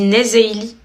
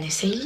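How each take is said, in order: First: The middle consonant is a buzzing z sound. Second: The middle consonant is a hissing s sound. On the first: The speaker calls it right. "Ça se dit Nezeili" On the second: The speaker calls it wrong. "Ça fait pas un Essayli"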